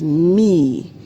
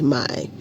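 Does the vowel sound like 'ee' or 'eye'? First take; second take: ee; eye. First: The vowel sounds like 'ee'. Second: The vowel sounds like 'eye'. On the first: The speaker calls it right. "the pronunciation in Yahudith is me" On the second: The speaker calls it wrong. "and not my"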